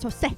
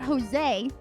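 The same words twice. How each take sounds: First: The final vowel is a short, pure e. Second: The final vowel glides long, like English ay. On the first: The speaker calls it right. "the E sound in Spanish itself is much shorter" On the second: The speaker calls it wrong. "it's not Jose"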